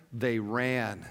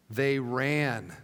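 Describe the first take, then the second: No difference in how they are said.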